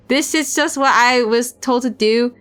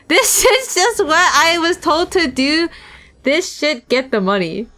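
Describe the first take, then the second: First: Said in the usual way. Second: Slower, higher thug take; slow, sneering thug. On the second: Shown as a demonstration. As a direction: drag it out with a sneer. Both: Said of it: "I, wait".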